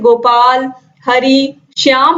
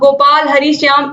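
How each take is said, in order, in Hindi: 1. हर नाम के बाद थोड़ा-सा विराम आता है। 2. नाम बिना किसी रुकावट के एक साथ जुड़कर बोले जाते हैं। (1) "रुक-रुक कर बोलोगे" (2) "एक में अगर आप बोलोगे तो अच्छा नहीं लगेगा"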